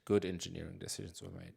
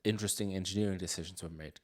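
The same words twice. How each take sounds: First: "good" lifted as a self-correction; stress on good. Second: Said in the usual way. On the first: Real, not acted. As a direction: lean on "good", replacing "interesting".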